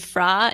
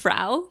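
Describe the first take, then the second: First: The name ends in an open 'ah' vowel. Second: The name ends in an 'ow' vowel. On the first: This is how it is said in the show. The speaker calls it right. "I think the way they say it in the show is Fra" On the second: It is said this way by accident. The speaker calls it wrong. "it's so close to the word Frau that, that we start pronouncing it that way by accident"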